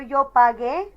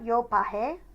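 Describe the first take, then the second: First: The middle consonant sounds like a hard g. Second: The middle consonant sounds like a breathy h. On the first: The speaker calls it right. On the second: The speaker calls it wrong.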